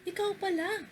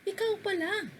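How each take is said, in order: The two takes are said the same way.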